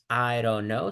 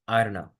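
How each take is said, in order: First: Every word is said fully and separately. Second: The words run together with sounds dropped. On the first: The speaker calls it wrong. "no es" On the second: The speaker calls it right.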